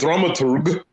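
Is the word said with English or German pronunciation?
German. It is said with a full German pronunciation. "If you want to go with the full German pronunciation"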